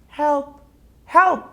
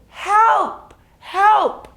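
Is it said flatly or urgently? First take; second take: flatly; urgently. First: It is said flatly, without urgency. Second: It is said loudly, with urgency.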